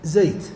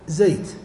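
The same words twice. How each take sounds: First: The vowel is an open a sound. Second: The vowel is an open a sound.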